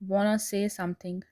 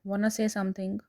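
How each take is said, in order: First: Want to is reduced to wanna. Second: Want to is reduced to wanna.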